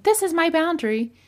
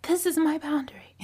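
First: Mock harsh declaration. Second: Breathy whispered "This is my boundary."; hushed mock boundary line; whispered mock statement. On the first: Harsh out-of-control example. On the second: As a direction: whisper the line as a mocked example. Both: Shown as a demonstration.

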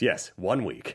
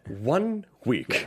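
First: Low, softer mock-villain reply; villain's solemn confirmation. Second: Drawn-out, portentous imitation of a villain; spelled-out villain line. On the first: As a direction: confirm it gravely, like the movie villain. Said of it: "And then he goes". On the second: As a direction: stretch each word like a movie villain. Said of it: "I think he even goes".

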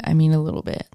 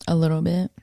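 First: "mean" stressed with a falling tune. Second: Said in the usual way. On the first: Real, not acted. Insisting she barely worked out, "mean" stressed. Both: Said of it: "when I say a little bit".

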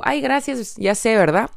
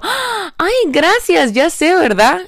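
First: Light, only a little higher, casual ya sé verdad; relaxed playful thanks; breezy cheeky thanks. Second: Much higher, louder mock-diva thanks; exaggerated high delighted thank-you; cheeky confident thanks. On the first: Shown as a demonstration. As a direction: toss it off calmly. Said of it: "yo digo". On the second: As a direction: gush playfully, ya sé verdad with a rising tease. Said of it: "y yo".

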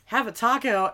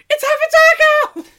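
First: Said in the usual way. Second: High, loud, thrilled exclamation; excited shout. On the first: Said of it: "we're like". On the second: Retold or imitated. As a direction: blurt it out like a gleeful discovery. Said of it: "I'm like".

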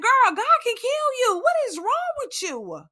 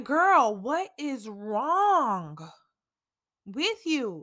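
First: Self-scolding. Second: Slow self-reproach. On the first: Scolding herself in self-talk. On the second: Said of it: "I have been talking to myself". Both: Retold or imitated.

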